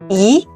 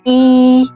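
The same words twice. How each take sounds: First: The syllable is said on a rising tone. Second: The syllable is said on a level tone. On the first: It comes before a falling-tone syllable. "E becomes a rising tone" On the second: It is the number one counted alone. "When you count one, it has a flat tone"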